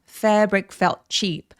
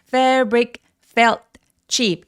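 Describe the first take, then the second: First: Each word is clipped short and joined quickly. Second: Each word is said separately with breaks between. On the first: The speaker calls it right. "빨리 끊고 바로 다음 거를 소리를 내주시면 되겠습니다" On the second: The speaker calls it wrong. "이렇게 나눠서 발음하는 게 아니라"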